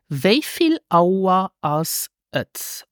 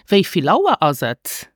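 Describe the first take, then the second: First: It is said slowly, each word carefully separated. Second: It is said quickly, with the words run together. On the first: "Let me repeat" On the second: "Or more natural"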